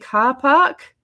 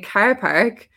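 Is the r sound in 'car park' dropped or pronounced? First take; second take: dropped; pronounced. First: The r sounds are dropped. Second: The r sounds are clearly pronounced. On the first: "I had to start saying car park because they don't pronounce the or" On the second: "they couldn't understand me saying car park"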